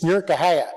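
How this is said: The name is squashed together into one word. It sounds like a local saying it. The speaker calls it right. "It's Nurkahaya, if you're a local"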